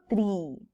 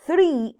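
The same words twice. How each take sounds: First: "tree" with a plain T, no TH; wrong "tree". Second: "three" with a TH, high and loud; correct "three". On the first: Teacher shows the wrong "tree" with a T. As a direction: say "tree" with a hard T as the mistake to avoid. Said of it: "No digo tree". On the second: Teacher stresses the right "three" with a TH. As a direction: hit "three" hard with a TH at the start. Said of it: "ese sí es el número". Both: Shown as a demonstration.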